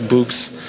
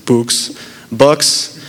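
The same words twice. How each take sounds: First: "Books" with the short oo of "look", after a small laugh; corrected word. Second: "books" with a tense long oo, like "pooks"; mispronounced word. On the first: Correcting his own slip to listeners, a laughing "Books". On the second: Slipping on a word mid-story, saying "books" like "pooks". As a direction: say "books" with the vowel of "food", as a slip of the tongue. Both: Real, not acted. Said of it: "I don't know how I messed that word up".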